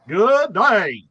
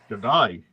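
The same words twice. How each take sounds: First: It is said in a Southern US accent. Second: It is said in an Australian accent. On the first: The speaker calls it wrong. "I'm trying to do it with a ac- with a southern accent" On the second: The speaker calls it right. "I like your Australian accent"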